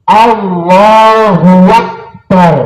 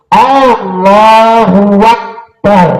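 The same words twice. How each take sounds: The two takes are said the same way.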